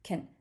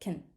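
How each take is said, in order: The two takes are said the same way.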